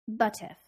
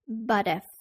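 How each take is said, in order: First: The T is aspirated, a crisp true T. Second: The T sounds soft, more like a D. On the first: "in British English, the speaker is more likely to aspirate the T, so it sounds more like a true T" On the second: "in U S English, we do not aspirate the T, so it sounds more like a D"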